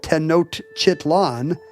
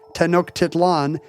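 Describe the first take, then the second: First: The middle has a 't' then 'ch' sound. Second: The middle has a 'k' then 't' sound. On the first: The speaker calls it wrong. "that's the wrong order" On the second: The speaker calls it right. "the answer is"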